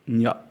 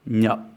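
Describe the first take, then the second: No difference in how they are said.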